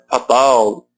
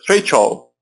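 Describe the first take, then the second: First: It is pronounced with Portuguese vowels and sounds. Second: It is pronounced with English vowels and sounds. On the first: The speaker calls it wrong. "cuidado para não falar né" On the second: The speaker calls it right. "E fatal seria feichol. Olha como é diferente"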